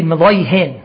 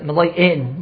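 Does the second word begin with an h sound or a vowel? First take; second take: h sound; vowel. First: The second word begins with an h sound. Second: The second word begins with a vowel. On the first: This is the standard pronunciation. "with a Hey" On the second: This is how a teacher unable to pronounce the h said it. "with an Aleph"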